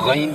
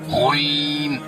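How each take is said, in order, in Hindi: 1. यह शब्द होंठों को बिना गोल किए बोला जाता है। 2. यह शब्द होंठों को गोल करके बोला जाता है।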